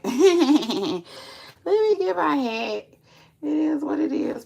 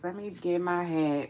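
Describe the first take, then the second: First: High laughing repeat. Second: Said in the usual way. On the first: Real, not acted. Laughing repeat to viewers, high and loud.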